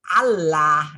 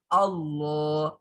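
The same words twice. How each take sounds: First: The L sound is thin and light. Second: The L sound is thick and heavy. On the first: Someone untrained in recitation reads it. "orang yang belum pernah ngaji" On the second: Someone trained in recitation reads it. "sehingga dia terasa tebal"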